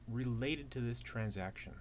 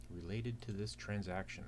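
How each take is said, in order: Both takes have the same delivery.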